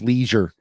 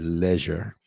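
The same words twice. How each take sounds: First: It is said with an American accent. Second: It is said with a British accent.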